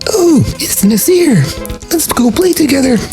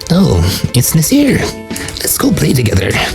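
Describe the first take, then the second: First: The voice is pushed up very high. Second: The voice sounds like a croaky gremlin. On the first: "like really high pitched" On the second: "that sounds like, like a gremlin"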